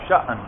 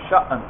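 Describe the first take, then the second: First: The vowel is cut by a sharp glottal catch. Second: The vowel is cut by a sharp glottal catch.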